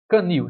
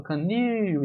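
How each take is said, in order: First: Said in the usual way. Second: "canil" com NIL esticado e mais agudo; tônica alongada. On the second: Shown as a demonstration. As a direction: prolongue a última sílaba de "canil". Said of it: "isso aqui é a sílaba mais forte". (sílaba forte NIL demorada em "canil")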